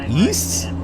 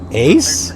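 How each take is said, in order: First: The word sounds like 'east'. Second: The word sounds like 'ace'.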